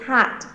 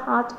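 First: The word ends with a released, breathy T. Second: The word ends without a clear final T. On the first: The speaker calls it right. "we have T at the end instead" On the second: The speaker calls it wrong. "I heard you said hot, but it's not hot"

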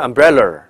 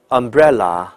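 First: The 'la' is said with a curled tongue. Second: The 'la' is said without curling the tongue. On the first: The speaker calls it wrong. "而不是umbrella" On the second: The speaker calls it right. "都不能卷，所以这个词应该叫umbrella"

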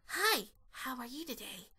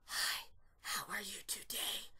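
First: It is a wispy whisper with more voice. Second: It is a false whisper, mostly air.

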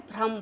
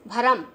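First: The bh and r form one cluster. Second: A vowel is inserted between bh and r. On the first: The speaker calls it right. "भ्रम बोलना है" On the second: The speaker calls it wrong. "उच्चारण करते हैं भरम, जो कि गलत है"

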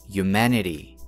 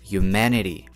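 Both takes have the same delivery.

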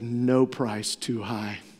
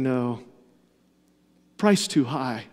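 First: There is no pause after 'no'. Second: There is a pause after 'no'.

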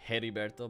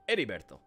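First: The name begins with an audible H sound. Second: The name begins without any H sound. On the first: The speaker calls it wrong. "I almost said Heriberto, but I know that's not how you say it" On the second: The speaker calls it right. "You don't pronounce the H in Spanish"

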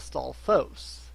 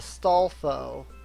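First: The word ends with a final s sound. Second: The word ends without a final s sound. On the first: "most people call it a stalfos" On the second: "the Legend of Zelda cartoon from, like, ever ago called it a stalfo"

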